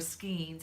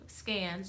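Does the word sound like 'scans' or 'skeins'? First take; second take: skeins; scans. First: The word sounds like 'skeins'. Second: The word sounds like 'scans'. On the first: This is the pronunciation others expect. "however you want to pronounce it" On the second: This is the pronunciation learned growing up. "I grew up saying scans"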